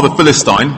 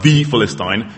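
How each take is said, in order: First: Said in the usual way. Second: "the" stressed, said as "thee". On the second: Shown as a demonstration. Preacher singles out Goliath, stress on "the". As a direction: lean on "the", with a long vowel. Emphasises which Philistine is meant.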